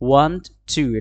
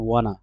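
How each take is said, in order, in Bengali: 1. দুটো শব্দই আলাদাভাবে ও পুরোপুরি বলা হয়। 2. শব্দ দুটো মিশে একটা ছোট শব্দ হয়ে যায়।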